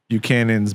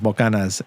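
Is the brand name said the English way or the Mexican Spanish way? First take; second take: English; Mexican Spanish. First: The name is said with an English pronunciation. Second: The name is said with a Mexican Spanish pronunciation. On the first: This is the name as used in the speaker's own country. "That's Buchanan's" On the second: This is the name as used in Mexico. "in Mexico we call it uh, Bocanas"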